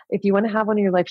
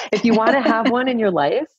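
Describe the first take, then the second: First: Quick, matter-of-fact repeat; fast, businesslike restatement; brisk instructions. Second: High, louder, laughing through the words; half-laughing mock manual; laughing instructions. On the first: Retold or imitated. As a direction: rattle it off like a manual. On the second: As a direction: giggle out the terms of use. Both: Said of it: "almost like the operating instructions".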